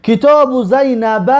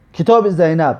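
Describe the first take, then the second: First: Slow, higher Arabic reading: کتاب زینبه with final 'a'. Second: Said in the usual way. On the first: Shown as a demonstration. (خواندن عربی با فتحه) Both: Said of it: "آخرین مثالش ببینید".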